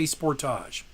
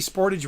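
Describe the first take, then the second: First: It is said the Canadian way. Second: It is said the American way.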